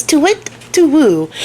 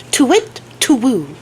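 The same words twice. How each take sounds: First: Slow, drawn-out high owl hoot, second take. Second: High hooting owl call, first take. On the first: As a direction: hoot it long and eerie like a big owl. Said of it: "She says". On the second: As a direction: hoot it like an owl up in the rafters. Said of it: "she makes a very specific sound". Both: Retold or imitated.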